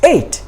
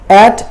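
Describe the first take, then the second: First: The vowel is long, like in eight. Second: The vowel is short, like in cat. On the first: The speaker calls it right. "It's eight" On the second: The speaker calls it wrong. "At is the wrong pronunciation"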